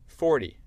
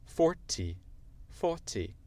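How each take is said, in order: First: American forty, like for-dee; loud American forty, T softened to D; American accent. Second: British demo, T of forty sounded; British accent. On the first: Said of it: "avec mon accent américain". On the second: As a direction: say forty the British way, faw-tee. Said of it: "Ça, c'est l'accent britannique". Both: Shown as a demonstration.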